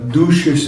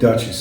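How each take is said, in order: First: The word is said with a French pronunciation. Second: The word is said with an English pronunciation. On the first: "they would pronounce it" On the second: "different than Duchess"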